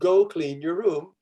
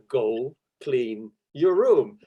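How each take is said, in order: First: The voice is at a normal pitch. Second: The voice is lower in pitch. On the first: This is the first request. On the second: The request is being repeated more sternly.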